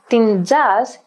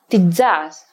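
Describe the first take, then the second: First: The n is kept before the z sound. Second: The n is dropped before the z sound.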